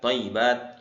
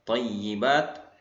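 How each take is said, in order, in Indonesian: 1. Bunyi y yang digandakan dilemahkan dan terdengar ringan. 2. Bunyi y yang digandakan ditahan dengan jelas.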